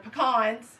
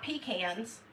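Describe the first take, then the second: First: The word starts with a short 'puh' sound. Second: The word starts with a 'pea' sound. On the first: It is how people say it in the South. The speaker calls it right. "They're pecans down here in the South" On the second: It sounds like peas in a can. The speaker calls it wrong. "We don't put peas in a can"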